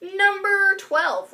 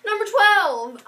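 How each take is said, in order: First: Stretched out slowly; slow drawn out. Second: Higher and louder announcing. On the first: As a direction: draw the words out slowly. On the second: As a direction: announce it boldly. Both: Shown as a demonstration. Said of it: "right? Twelve?".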